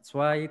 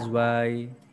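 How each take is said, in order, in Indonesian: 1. Kata ini diawali bunyi ts yang tajam. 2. Kata ini diawali bunyi z yang bergetar. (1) "Z bacanya seperti T S" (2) "kalau belum terbiasa orang bacanya zwai"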